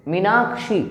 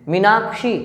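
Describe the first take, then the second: Both takes have the same delivery.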